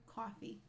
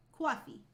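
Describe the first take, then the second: First: Said in the usual way. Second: "Coffee" as a higher New York "cwawfee"; exaggerated New York accent. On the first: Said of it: "I can't do it anymore". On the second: Shown as a demonstration. Streamer showing how she says coffee, overdone New York accent. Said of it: "doing a really over-exaggerated version of it".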